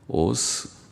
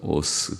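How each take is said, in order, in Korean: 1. 이 단어는 부드러운 'th' 소리로 끝납니다. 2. 이 단어는 그냥 's' 소리로 끝납니다. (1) "우리는 그, 라는 발음 잘 없죠" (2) "그래서 오스"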